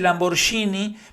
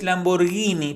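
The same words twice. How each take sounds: First: The G is pronounced with a harsh sound. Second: The G is pronounced with a soft sound. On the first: The speaker calls it wrong. "él dice Lamborghini" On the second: The speaker calls it right. "es para que esa G justamente suene suave"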